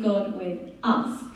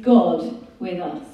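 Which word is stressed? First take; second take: us; God. First: The word us carries the main stress. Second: The word God carries the main stress. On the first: God is present for these very people. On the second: The one who came is God himself.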